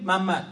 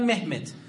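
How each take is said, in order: First: The name is pronounced as Mammad. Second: The name is pronounced as Mehmet. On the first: This is how Iranian speakers say the name. "ما تو ایران میگیم محمد" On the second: This is how Turkish speakers say the name. "ترکیه میگن محمد"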